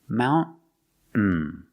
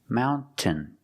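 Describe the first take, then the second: First: The T is stopped, air held, then N. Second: The T is clearly released before the ending. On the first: "make a stop T, ... stop the air, and then fall to the N" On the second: "making the T sound"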